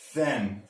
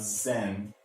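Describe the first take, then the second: First: It begins with a soft th sound. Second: It begins with a buzzing z sound. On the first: The speaker calls it right. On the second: The speaker calls it wrong. "not zen"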